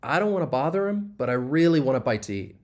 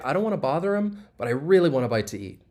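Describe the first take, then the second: Both takes have the same delivery.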